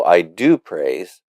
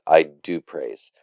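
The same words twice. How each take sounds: First: "do" drawn out and leaned on; stress on DO. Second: Said in the usual way. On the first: Acted. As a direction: insist on "do", contradicting the other person. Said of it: "the use of do, uh, is emphatic". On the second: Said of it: "doesn't always, uh, mean emphatic".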